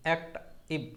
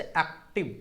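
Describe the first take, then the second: First: "act, इव" split in two with a short gap; pause inside word. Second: Said in the usual way. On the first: Shown as a demonstration. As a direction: break "act, इव" after the first syllable. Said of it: "थोड़ा सा लग रहा है ना". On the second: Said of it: "pause लेना होता है".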